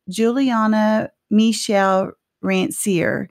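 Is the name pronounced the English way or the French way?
English. The name is said with an English pronunciation. This is how the family says the name. "We say it the first way"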